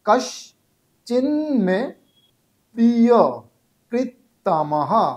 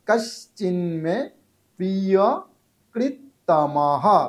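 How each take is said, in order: First: The first word is split into two parts. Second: The first word is said as one unit. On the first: The speaker calls it wrong. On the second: The speaker calls it right.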